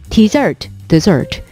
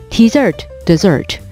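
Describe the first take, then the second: The two takes are said the same way.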